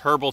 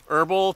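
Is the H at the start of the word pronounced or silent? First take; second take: pronounced; silent. First: The word begins with a clear H sound. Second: The word begins with a vowel, no H sound.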